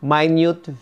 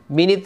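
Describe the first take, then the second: First: The stress is on the second syllable. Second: The stress is on the first syllable. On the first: It means very, very small. "minute, very, very small" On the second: It means sixty seconds. "Minute, 60 seconds"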